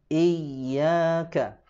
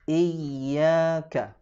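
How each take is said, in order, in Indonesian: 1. Bunyi 'y' ganda itu ditekan dan ditahan. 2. Bunyi 'y' ganda itu ditekan dan ditahan.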